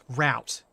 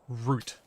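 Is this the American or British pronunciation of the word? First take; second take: American; British. First: It is said the American way. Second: It is said the British way. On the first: The speaker calls it wrong. "it's not route" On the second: The speaker calls it right. "in the Australian and British accent, it's route"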